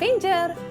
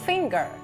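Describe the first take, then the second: First: The word is read the Indonesian way. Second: The word is read the English way. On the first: The speaker calls it wrong. "Bukan finger" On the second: The speaker calls it right. "tetapi finger"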